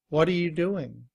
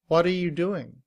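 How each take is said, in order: First: 'What are' blends into a quick 'whada'. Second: The same.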